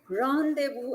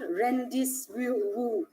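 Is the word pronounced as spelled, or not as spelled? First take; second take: not as spelled; as spelled. First: The word is not pronounced as it is spelled. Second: The word is pronounced as it is spelled. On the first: The speaker calls it right. "it's rendezvous" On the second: The speaker calls it wrong. "not rendezvous as it is spelled out"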